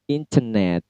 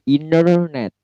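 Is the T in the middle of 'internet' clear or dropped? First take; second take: clear; dropped. First: The T is clearly pronounced; the R is silent. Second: The T is dropped; the R is clearly pronounced. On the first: "kalau British tentu T-nya jelas" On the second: "T-nya hilang"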